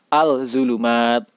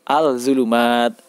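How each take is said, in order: First: The article's L sound is clearly pronounced. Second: The article's L sound is clearly pronounced.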